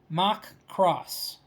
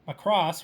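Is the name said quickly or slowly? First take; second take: slowly; quickly. First: It is said slowly, as two separate words. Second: It is said quickly, run together as one word. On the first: The speaker calls it right. "I had to say that slowly" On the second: The speaker calls it wrong. "so I didn't say Macross"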